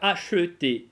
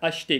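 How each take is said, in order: First: "acheter" with the middle э sounded, a-sheu-tay; pronounced schwa. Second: "acheter" with the э dropped, ash-tay; swallowed schwa. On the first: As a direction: give "acheter" three syllables, middle vowel voiced. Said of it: "а можно читать её как". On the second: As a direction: swallow the middle vowel of "acheter", two syllables. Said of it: "глотая, соответственно, эту «э»". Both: Shown as a demonstration.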